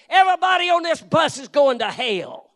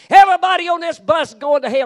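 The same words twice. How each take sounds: First: Loud, higher hellfire shout at the passengers; bus preacher yelling. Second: Even louder, much higher all-out hellfire shout; full-blast bus preacher yell. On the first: Zealous street preacher shouting at bus riders, loud and high. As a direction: bellow it at a busload of strangers. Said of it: "he'd just step up on a bus and say". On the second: Street preacher roaring at a packed bus, louder and higher. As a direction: give it everything, a roaring warning. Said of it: "He got up on a bus and said". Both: Retold or imitated.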